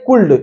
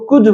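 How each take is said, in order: First: The word is said with an L sound. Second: The word is said without any L sound. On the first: The speaker calls it wrong. "अब ये नहीं कुल्ड" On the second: The speaker calls it right. "वो कुड होगा"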